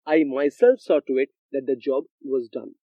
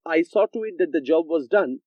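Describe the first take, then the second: First: Emphatic "myself", the rest left even; stress on myself. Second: Said in the usual way. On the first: Shown as a demonstration. Teacher showing students an emphatic pronoun, stress on "myself". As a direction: put the weight on "myself" to back the claim. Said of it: "I wanted to put stress on what I am saying". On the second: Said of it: "if I had even said that".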